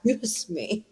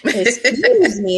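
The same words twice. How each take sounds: First: Much softer, under-the-breath "Excuse me"; hushed indignant comeback; stunned, quiet retort. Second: Slow, drawn-out "Excuse me"; hammed-up offended retort; mock indignation. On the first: Retold or imitated. First stunned retort to son. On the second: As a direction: stretch it out, playfully affronted.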